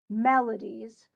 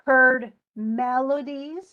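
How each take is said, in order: First: Melodies, slow, first syllable MEL stressed. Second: Heard melodies, slow, MEL hit loud; stress on first syllable. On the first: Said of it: "stressed on the first syllable". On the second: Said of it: "melodies is definitely stressed on the first syllable". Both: Shown as a demonstration.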